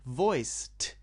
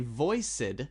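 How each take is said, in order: First: The word ends with a voiceless T sound. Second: The word ends with a voiced D sound. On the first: The speaker calls it right. "I said voiced. It sounds like a T" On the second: The speaker calls it wrong. "I didn't say voiced"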